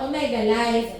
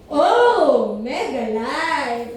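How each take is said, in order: First: It is said smoothly with no break after 'O'. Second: A separate 'oh' comes first, then a pause. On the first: The speaker calls it wrong. "Hin- Hindi pala ganun ang pag-pronounce" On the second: The speaker calls it right. "Dapat pala, mauna mo na yung, oh"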